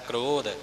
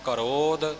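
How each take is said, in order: First: The k and r form one tight cluster. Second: A short vowel separates the k and r. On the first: "ਆਮ ਤੌਰ 'ਤੇ ਕੱਕੇ ਦੇ ਚਰਨ ਵਿੱਚ ਰਾਰਾ ਹੁੰਦਾ ਹੈ" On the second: "ਇੱਥੇ ਰਾਰਾ ਪੂਰਾ ਆਇਆ ਹੈ"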